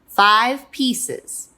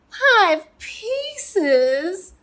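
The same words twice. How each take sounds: First: Firm, louder falling answer; chiming parents. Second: Put-on high, drawn-out childish whine; whining. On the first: Acted. Parents chiming back to whining child, firm and loud. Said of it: "they chimed". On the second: Little Pea told to eat five pieces, whining high. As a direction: whine it in disbelief, high and rising. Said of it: "he whined".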